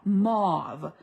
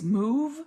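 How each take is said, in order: First: The vowel is an 'aw' sound. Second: The vowel is not an 'aw' sound. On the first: "I pronounce it mauve with an aw sound" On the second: "I've heard it all kinds of different ways"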